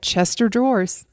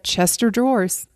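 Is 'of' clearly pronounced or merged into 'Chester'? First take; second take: merged; merged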